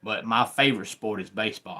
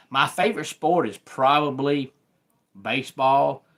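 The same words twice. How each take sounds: First: Said in the usual way. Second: Higher and louder, bursting with the answer; eager reveal. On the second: Real, not acted. Host telling his viewers his favorite sport, eager and loud. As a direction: blurt out the favorite with enthusiasm.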